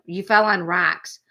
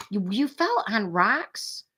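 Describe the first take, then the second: First: Said in the usual way. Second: Slow, with fell rising into a question; checking whether she read it right; questioning rise. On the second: Real, not acted. Streamer double-checks a chat message, slow questioning rise. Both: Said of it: "Oh, you did write roaches".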